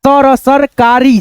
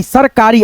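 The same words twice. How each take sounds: First: Slow, broken into syllables; sounding out सरकारी slowly for a learner. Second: Said in the usual way. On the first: Shown as a demonstration. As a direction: spell it out syllable by syllable.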